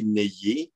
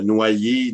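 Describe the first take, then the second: First: "nayer" with è in place of wa; old popular pronunciation. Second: Said in the usual way. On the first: Shown as a demonstration. Lecturer giving old usage example, "nayer" for noyer. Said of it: "on pouvait dire nétayer".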